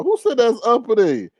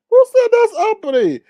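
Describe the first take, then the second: First: Said in the usual way. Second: Much higher, louder outraged repeat; indignant yell. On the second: Real, not acted. Host demanding of chat who called it uppity, indignant yell. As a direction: throw the question out in outrage. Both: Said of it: "repeats the question louder".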